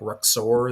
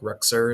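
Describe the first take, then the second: First: The last syllable sounds like 'or'. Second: The last syllable sounds like 'er'. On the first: This follows the spelling. "it's kind of got like a Lex Luthor thing because it's like more like Ruxor" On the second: This is how the owner says it. "So I pronounce it Ruxer"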